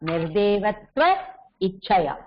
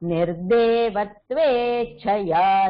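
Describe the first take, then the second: First: The two words are said separately. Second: The two words merge into one word.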